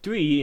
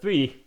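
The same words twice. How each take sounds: First: The first sound is not a clear 'th'. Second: The first sound is a clear 'th'. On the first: The speaker calls it wrong. "I used to say theory or three" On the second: The speaker calls it right. "instead of three"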